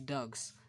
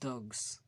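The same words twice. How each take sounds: First: The word ends with a voiceless s sound. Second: The word ends with a voiced z sound. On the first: "Use of "s" instead of "z"" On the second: "instead of dogs"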